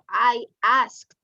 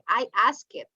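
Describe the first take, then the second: First: The ending is a single consonant sound. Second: The ending is an extra syllable. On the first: The speaker calls it right. "It's like a T" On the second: The speaker calls it wrong. "You don't say I asked it"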